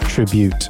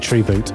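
First: The first syllable has a short 'i' vowel. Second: The first syllable has a long 'ee' vowel. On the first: The speaker calls it right. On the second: The speaker calls it wrong.

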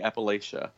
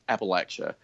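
First: It is said the northern way. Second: It is said the southern way. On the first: The speaker is an outsider. "Above that, they're going to say Appalachia" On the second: The speaker is a local insider. "below this imaginary line, ... you're going to hear it pronounced Appalachia"

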